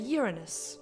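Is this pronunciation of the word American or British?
British. The word is said in a British way.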